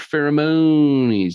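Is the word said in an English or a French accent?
French. The word is said in a French accent.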